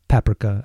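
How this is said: It is said with a British pronunciation.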